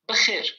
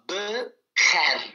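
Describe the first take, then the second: First: The second vowel is a closed 'ay' sound. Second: The second vowel is an open 'ah' sound. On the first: The speaker calls it right. "si on met le chapeau, hop, tout de suite, c'est comme un accent aigu" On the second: The speaker calls it wrong. "S'il n'y a pas de chapeau, on le lirait comme ça"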